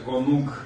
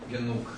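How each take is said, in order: First: The first vowel is a full 'o' sound. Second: The first vowel is a weakened 'e' sound. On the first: "получается «гонук»" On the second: "он произносится ослабленно, уже не «о», а «э»"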